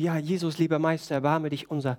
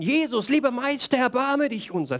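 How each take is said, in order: First: It is said quietly and calmly. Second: It is shouted loudly and urgently.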